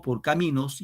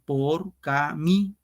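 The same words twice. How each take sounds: First: Said in the usual way. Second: Por cami slowly split as por, ca, mi; syllable by syllable. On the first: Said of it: "cuando digo por caminos". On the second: Shown as a demonstration. Teacher counting up to the accented syllable, slow split por cami. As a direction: count out por, ca, mi, stopping on stressed "mi". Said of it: "acá va el acento".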